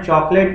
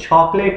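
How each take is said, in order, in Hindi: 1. यह शब्द 'ch' ध्वनि से शुरू नहीं होता। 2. यह शब्द 'ch' ध्वनि से शुरू होता है। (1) "चॉकलेट नहीं है" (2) "तो ये छः का साउंड है"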